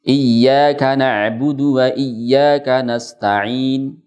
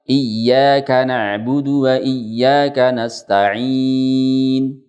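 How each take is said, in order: First: The final long vowel is held for two counts. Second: The final long vowel is held for six counts. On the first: "Saya contohkan yang dua harokat dengan ishmam" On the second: "Yang enam harokat"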